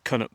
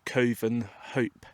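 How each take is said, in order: First: The V and H sounds are both dropped. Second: The V and H sounds are both pronounced. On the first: This is how the name is actually said. "So somehow the V is dropped and the H" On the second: This is how the spelling looks. "it looks like Coven Hope"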